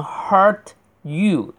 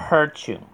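First: "hurt you" as two words, clear released t; t fully pronounced. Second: "hurt you" run together as hur-chyou; linked pronunciation. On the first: Teacher insists on the final t, "hurt you" said separately with crisp t. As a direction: finish the t in "hurt", then say "you". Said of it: "就必须要把那个t读出来". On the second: Teacher shows students linking, "hurt you" as one hur-chyou. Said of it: "或者可以连读". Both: Shown as a demonstration.

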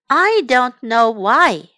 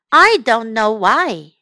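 The two takes are said the same way.

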